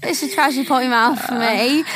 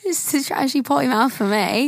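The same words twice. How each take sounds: First: Mock British accent, lightly done; a light British reality-star twang. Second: Put-on slurred British reality-star accent, raspy; British accent like Chloe. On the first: Trying a British accent on her co-host's phrase. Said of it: "I can kinda do the British accent better". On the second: Copying Chloe from Love Island in a British accent. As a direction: drag the word ends like a British TV girl. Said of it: "I feel like Chloe from Love Island U K".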